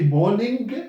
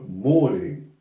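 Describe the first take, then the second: First: The word ends with a hard G sound. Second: The word ends with a nasal ng sound. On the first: The speaker calls it wrong. "Do we say morning? G, G?" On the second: The speaker calls it right. "something with the nose here"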